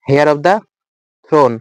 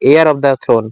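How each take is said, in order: First: The first word begins with an audible h sound. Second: The first word begins with no h sound. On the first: The speaker calls it wrong. "কিন্তু এটা উচ্চারণ হেয়ার হবে না" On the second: The speaker calls it right. "এয়ার হবে। ... এইচটা উচ্চারণ হবে না"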